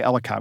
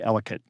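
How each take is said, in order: First: The name does not rhyme with delicate. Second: The name rhymes with delicate. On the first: The speaker is not from the area. The speaker calls it wrong. "We don't say Ellicott" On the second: The speaker is local. The speaker calls it right. "we say Ellicott"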